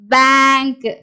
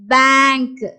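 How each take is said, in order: First: The vowel is an open 'ae' sound. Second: The vowel is an open 'ae' sound.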